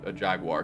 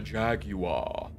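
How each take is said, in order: First: It is said in the speaker's plain accent. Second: It is said in a British accent.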